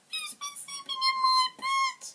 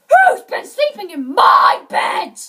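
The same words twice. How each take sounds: First: It is said in a tiny wee voice. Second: It is said in a great big voice. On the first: "in his tiny wee voice" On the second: "in his great big voice"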